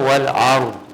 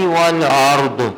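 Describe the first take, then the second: First: The final consonant is released plainly without bounce. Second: The final consonant has a light echoing bounce. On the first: The speaker calls it right. "तो यहाँ पर इसको पढ़ेंगे" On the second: The speaker calls it wrong. "हल्का सा खफीफ सा मैंने जानबूझ के वो कर दिया है कलकला"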